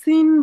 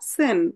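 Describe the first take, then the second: First: The vowel sounds like 'ee'. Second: The vowel sounds like 'ay'. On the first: The speaker calls it wrong. "সিন বলা ঠিক হবে না" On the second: The speaker calls it right.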